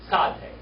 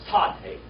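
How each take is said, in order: Both takes have the same delivery.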